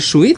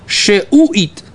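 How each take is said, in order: First: No vowel follows the sh, giving two syllables. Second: A short vowel follows the sh, giving three syllables. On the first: This is how it is commonly said. The speaker calls it wrong. "Не шуит, как мы говорим" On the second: The shva here is vocal. The speaker calls it right. "а шеуит"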